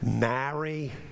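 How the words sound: The name is said in a New Orleans accent.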